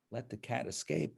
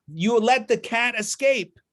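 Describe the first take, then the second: First: Said in the usual way. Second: Angry accusation. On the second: Acted. Man blames assistants.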